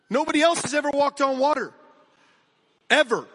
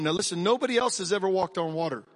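First: Emphatic. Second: Said in the usual way. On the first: Real, not acted. Pastor repeats it, louder, higher.

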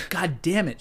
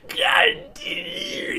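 First: Said in the usual way. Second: Very high, hugely drawn-out seething cry; imitated strangled rage. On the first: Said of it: "instead of saying". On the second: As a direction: choke the curse into a long strained squeal. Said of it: "that's just rage".

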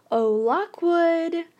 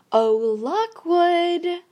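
First: High, slow, falsely breezy call; forced lightness. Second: High, slow sing-song call, louder; merry sing-song. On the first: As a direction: call him as if nothing were wrong. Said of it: "I said it as lightly as I could". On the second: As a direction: coo it like to a cuddly pet. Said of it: "I was using a merry sing-song int". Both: A narrator's reading.

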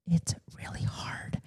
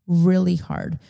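First: Breathy whisper, much softer, slow. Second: Said in the usual way. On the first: Real, not acted. Mom admits work-from-home is hard, whispering. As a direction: whisper it like a confession.

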